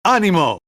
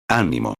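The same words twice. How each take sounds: First: High, ecstatic shout of ¡Ánimo!, voice leaping up; hysterical cry of cheer. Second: Low, soft ¡Ánimo!, calm and comforting; reassuring encouragement. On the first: Paul runs on deck shaking his chained hands, shouting ¡Ánimo! in high ecstasy. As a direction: fling ¡Ánimo! out like a man beside himself with joy. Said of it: "sacudiendo las manos así, como un hombre histérico". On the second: Paul gently reassures the frightened crew with a low, soft Ánimo. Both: Retold or imitated.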